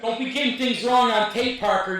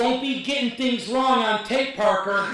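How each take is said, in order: First: Laughing scold. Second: Teasing scold. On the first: Repeated while laughing. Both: Real, not acted.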